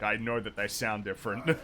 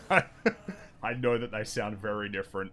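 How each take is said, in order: First: Said in the usual way. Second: Laughing. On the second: Real, not acted. Laughing while insisting it again.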